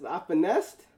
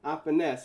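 First: Finessed said rising, proud; proud emphasis. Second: Finessed said lower, with a falling tune; finessed dropped low with a fall; proud emphasis. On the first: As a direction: stress on finessed with a rising tune. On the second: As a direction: land finessed firmly, falling. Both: Shown as a demonstration. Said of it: "when I tell you finesse".

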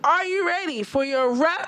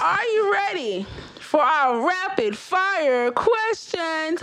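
First: Trying not to laugh. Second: Slow, drawn-out host announcement; game show host. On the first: Real, not acted. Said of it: "you guys keep making me laugh". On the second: Pretend. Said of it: "I was trying to".

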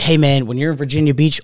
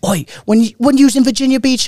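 First: Said in the usual way. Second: Higher, badly faked Manchester accent; shitty Manchester accent. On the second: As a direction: attempt a Manchester accent and overdo it. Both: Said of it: "I can't do a fucking shitty accent".

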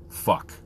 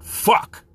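First: Said in the usual way. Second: "Fuck" punched out loud; rising inflection. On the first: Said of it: "you say with a certain, uh, rise and inflection". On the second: Shown as a demonstration. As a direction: hit "Fuck" hard with forceful, exclaimed inflection. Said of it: "rise and inflection to it".

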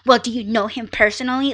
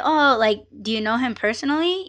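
First: Mock confrontational question, quick and pointed. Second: Casual, quick question with a light "oh"; friendly small-talk curiosity; just conversating. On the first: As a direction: ask it as if challenging him. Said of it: "I'm not like". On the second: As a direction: ask it offhand, as if to a friend. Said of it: "I was just asking him in that way". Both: Shown as a demonstration.

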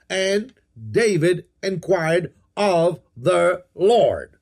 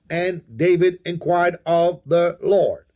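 First: Very slow, each word set apart. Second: Said in the usual way. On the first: Shown as a demonstration. Preacher pointing out six words to underline, word by word. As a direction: spell out "And David inquired of the Lord" one word at a time.

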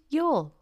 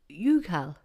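First: "Youghal" as one syllable, "yawl"; Irish pronunciation. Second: "Youghal" misread as YOU-kal; two syllables in "Youghal", with a hard k; spelling pronunciation. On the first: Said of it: "What about". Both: Shown as a demonstration.

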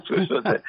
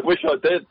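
First: "I" lifted high in "Wish I did"; stress on I. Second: Said in the usual way. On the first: Real, not acted. To his co-host about Sandra, wistful stress on "I". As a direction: push the pitch up on "I", half joking.

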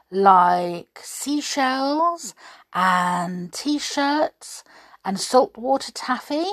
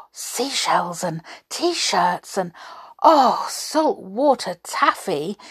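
First: Said in the usual way. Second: Donald delighted by the souvenirs, excited; dreamy then bursting with excitement; crying excitedly. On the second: Acted. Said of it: "he cried excitedly".

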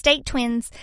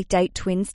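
First: Mock cutesy catchphrase voice; silly put-on voice. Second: Said in the usual way. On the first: Shown as a demonstration. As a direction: pop the phrase up in a playful put-on voice. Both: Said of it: "I don't know why I used that voice then".

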